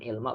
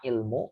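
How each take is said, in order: First: The word ends with an 'a' vowel. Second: The word ends with a 'u' vowel. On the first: The speaker calls it wrong. "bukan ilma" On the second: The speaker calls it right.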